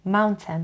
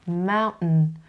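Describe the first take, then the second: First: The t is pronounced as a clear t. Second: The t is a catch in the throat. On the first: "اگر سختتونه خیلی راحت بگین mountain" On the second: "تی توی حلقتون تلفظ میشه"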